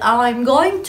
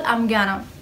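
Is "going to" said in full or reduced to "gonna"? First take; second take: full; reduced. First: The words "going to" are said in full. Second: The words "going to" are reduced to "gonna". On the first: "بدل I'm going to" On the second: "بقول I'm gonna, أسهل بكتير"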